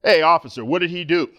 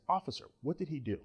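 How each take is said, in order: First: Loud, forceful challenge to the officer; command presence. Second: Much softer, mild polite question; polite concerned query. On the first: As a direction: demand answers like you own the scene. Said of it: "use some of that old command presence". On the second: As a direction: ask gently, sure you'll be heard. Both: Retold or imitated.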